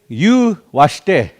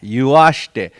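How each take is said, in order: First: There is a pause between the two parts. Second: It runs together as one word without pause. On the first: The speaker calls it wrong. "we don't say you washte" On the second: The speaker calls it right. "there's no pause right here; It all goes into one word like that"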